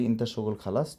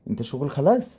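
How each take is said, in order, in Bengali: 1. সাধারণ বিবৃতির সুরে বলা হয়। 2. প্রশ্নের সুরে বলা হয়। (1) "আমরা যদি নর্মালি বলি" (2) "আবার যদি প্রশ্ন করি দেখেন কীভাবে করবো, কোনো কিছু চেঞ্জ করবো না।"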